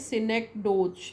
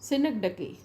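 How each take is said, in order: First: The word ends with a 'doze' sound. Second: The word ends with a 'dakee' sound. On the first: The speaker calls it wrong. "ऐसा हम पढ़ेंगे तो ऐसा पढ़ेंगे" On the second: The speaker calls it right. "Please take care when you pronounce it"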